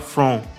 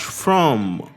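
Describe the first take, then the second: First: The word ends without the lips closing. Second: The word ends with the lips closed on M. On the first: The speaker calls it wrong. "Não é igual em português que a gente fala from" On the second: The speaker calls it right. "Tem que fechar os lábios"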